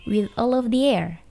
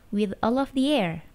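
No difference in how they are said.

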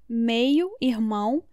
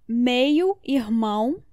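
No difference in how they are said.

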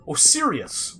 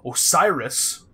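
First: The name ends with the sound 'irius'. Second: The name ends with the sound 'iris'. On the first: The speaker calls it wrong. "where I kept calling" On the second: The speaker calls it right. "which is the proper way to say it"

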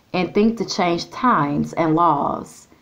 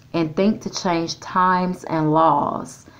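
No difference in how they are said.

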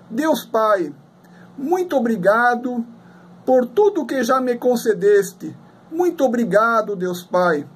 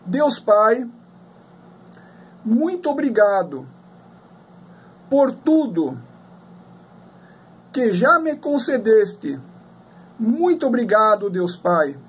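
First: It is said at normal speed. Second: It is said slowly.

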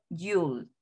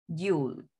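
No difference in how they are said.

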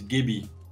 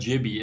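First: The word begins with a hard G sound. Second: The word begins with a soft J sound. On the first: The speaker calls it right. "it's Gibby" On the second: The speaker calls it wrong. "It's not a J, it's not Jibby"

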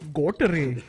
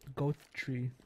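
First: The name is said in an Indian accent. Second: The name is said in a plain accent.

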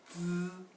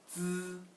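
First: The pitch stays high and level. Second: The same.

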